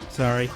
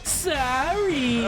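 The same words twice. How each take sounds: First: It is said flatly, without sarcastic inflection. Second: It is said with a sarcastic inflection.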